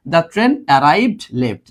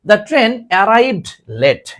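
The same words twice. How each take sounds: First: Very slow, each word drawn out; teacher repeating the example slowly; slow model read. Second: Very slow, each word drawn out; teacher reading the example slowly; slow model read. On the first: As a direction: repeat it slowly pointing at late. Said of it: "দেখো কোথায় বসছে?". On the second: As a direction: read the sentence slowly to the class. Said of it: "এই দেখো". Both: Shown as a demonstration.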